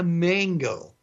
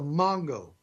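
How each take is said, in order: First: Mango is said with an American English pronunciation. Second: Mango is said with a Spanish pronunciation. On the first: The speaker calls it wrong. "Don't sound like a gringo all the time" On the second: The speaker calls it right. "I want to correct all of you right now, at least those of you who don't speak Spanish"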